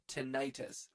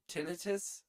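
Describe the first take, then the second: First: "tinnitus" said tih-NIGH-tus, slowly and evenly; second-syllable stress. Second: "Tinnitus" said TIN-uh-tus, higher and rising; first-syllable stress. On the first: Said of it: "stressing the second syllable". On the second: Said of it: "stressing the first syllable". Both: Shown as a demonstration.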